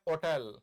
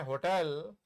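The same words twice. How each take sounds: First: होटल with the h dropped, o-tel; होटल with no h sound; hotel without h. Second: होटल with a clear h, ho-tel; होटल with the h sounded; hotel with h. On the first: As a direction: say होटल as otel, silent h. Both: Shown as a demonstration. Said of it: "इसके दो उच्चारण हैं".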